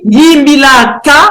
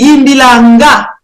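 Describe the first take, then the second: First: The last syllable starts with a k sound. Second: The last syllable starts with an ng sound. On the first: "Quand je dis Yimbila K" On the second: "on peut dire aussi Yimbila Nga"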